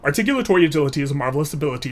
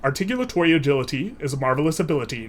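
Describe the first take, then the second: First: The phrase is spoken quickly. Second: The phrase is spoken at a moderate speed. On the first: "And then a little bit faster" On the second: "So a little bit faster"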